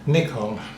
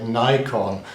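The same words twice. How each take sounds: First: The first vowel is short, like 'ih'. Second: The first vowel is long, like 'eye'. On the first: "But the English and the Australians ... all say Nikon" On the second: "makes the first consonant say its name, the letter I, Nikon, as the Americans and Canadians say it"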